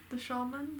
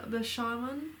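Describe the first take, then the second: First: "shaman" said as SHAH-man, softly rising; SHAH-man pronunciation. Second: "shaman" said as SHY-man, rising; SHY-man pronunciation. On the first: Second try at the word, "shaman" as SHAH-man, questioning. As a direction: say "shaman" with an open AH in the first syllable. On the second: Unsure of the word, tries "shaman" as SHY-man. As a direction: say "shaman" with a long I in the first syllable. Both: Shown as a demonstration.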